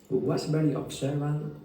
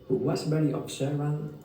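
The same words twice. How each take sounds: Both takes have the same delivery.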